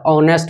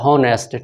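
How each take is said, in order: First: The word begins with a vowel sound. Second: The word begins with an h sound. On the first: This follows the older usage. "पुराने grammar का अनुसार इसका हिंदी उच्चारण अ माना जाता है" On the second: This follows the newer usage. "नए grammar के अनुसार इसको इसका उच्चारण ह माना जाता है"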